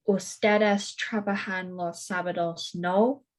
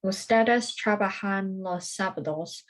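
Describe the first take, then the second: First: Statement then a questioning no on the end; tag question with rising no. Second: Said in the usual way. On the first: Shown as a demonstration. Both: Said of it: "adding the tags no or verdad at the end".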